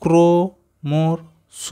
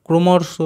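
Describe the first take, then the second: First: ক্রমর্ষ stretched out very slowly, syllable by syllable; slow sounding-out of ক্রমর্ষ; drawn-out blending. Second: Said in the usual way. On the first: Shown as a demonstration. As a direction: blend ক্রমর্ষ, dragging each sound long. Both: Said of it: "তিনটেকে আমরা যদি একসাথে উচ্চারণ করি".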